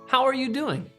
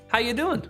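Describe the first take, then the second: First: The phrase is said slowly with every word clear. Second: The phrase is said quickly with words run together.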